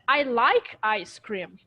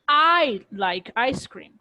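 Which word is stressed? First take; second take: like; I. First: The stress falls on the word like. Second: The stress falls on the word I. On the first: It contradicts a claim that I do not like it. "I am implying that maybe someone said that I don't like ice cream" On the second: It is me, not someone else, who likes it. "I am kind of implying that it's not someone else who likes ice cream. It's me"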